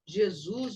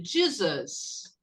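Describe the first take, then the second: First: Said in the usual way. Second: JESUS said the English way, JEE-zus; English pronunciation. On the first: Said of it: "você pronuncia assim". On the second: Shown as a demonstration. Teacher showing Brazilian students, English-pronounced "Jesus". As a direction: stress the first syllable of "Jesus", starting with a j as in jeep. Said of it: "você pronuncia".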